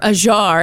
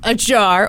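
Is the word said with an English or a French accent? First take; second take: French; English. First: The word is said with a French accent. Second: The word is said with a plain English accent.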